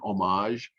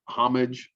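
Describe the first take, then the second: First: The word has a French pronunciation. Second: The word has an English pronunciation.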